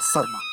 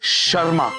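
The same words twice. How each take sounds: First: The name begins with an 's' sound. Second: The name begins with a 'sh' sound. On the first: The speaker calls it wrong. "Not शर्मा" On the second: The speaker calls it right. "It's शर्मा"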